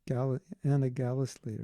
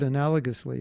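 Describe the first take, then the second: First: The word is said with changed, garbled syllables. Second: The word is said with its usual syllables. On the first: "he pronounces it a different way" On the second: "There's a word analogously"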